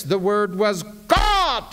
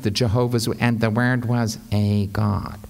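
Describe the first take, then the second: First: Emphatic, climactic God at the end; stress on God. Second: Low, deflated reading with no lift on God; drab, lowered delivery with no climax; anemic, anticlimactic. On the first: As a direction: land hard and high on the word God. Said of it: "read the word God with an emphasis". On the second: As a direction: let "a God" sink limply at the end. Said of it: "see how anemic and anticlimactic". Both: Shown as a demonstration.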